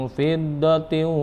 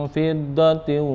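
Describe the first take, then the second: Both takes have the same delivery.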